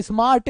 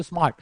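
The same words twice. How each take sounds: First: स्मार्ट stretched with a long trilled ending; wrongly drawn out. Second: Said in the usual way. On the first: Shown as a demonstration. Teacher mocking a wrong way to say it, drawn-out स्मार्ट. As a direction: exaggerate स्मार्ट, higher, dragging out its end. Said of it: "नहीं करते ना". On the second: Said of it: "सीधे एक बार में बोलते हो".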